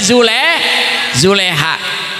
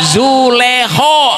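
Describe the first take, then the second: First: The name ends in an 'a' sound. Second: The name ends in an 'o' sound. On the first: This follows the Latin script. "kalau tulisan Latin pakainya A" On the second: This follows the Arabic script.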